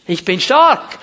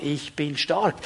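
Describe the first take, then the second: First: Loud, forceful declaration; strong, ringing declaration of faith; emphatic proclamation. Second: Low, soft declaration of faith; subdued, lower-pitched affirmation; quiet assurance. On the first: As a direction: proclaim it boldly, slamming STARK. Proclaims the weak person's declaration. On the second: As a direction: say it softly, as a settled truth. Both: Acted.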